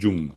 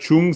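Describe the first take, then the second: First: The word begins with a voiced 'dj' sound. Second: The word begins with a voiceless 'ch' sound. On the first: The speaker calls it right. "le mieux, c'est Jung" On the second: The speaker calls it wrong. "c'est pas mal"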